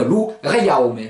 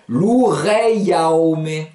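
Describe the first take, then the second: First: "loureiaome" quicker, flowing as connected words; said faster. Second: "loureiaome" very slow, each vowel group drawn out; slow, sound by sound. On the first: Teacher repeats the word at speed, quicker "loureiaome". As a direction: run the vowel groups of "loureiaome" together. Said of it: "Et plus vite, ça donne". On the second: Teacher joins two vowel groups, very slow "loureiaome". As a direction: stretch "loureiaome" as lou-rei-ao-me. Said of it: "les prononcer l'une à côté de l'autre". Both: Shown as a demonstration.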